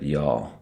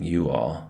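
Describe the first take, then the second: First: It is said in a Southern accent. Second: It is said in a plain accent.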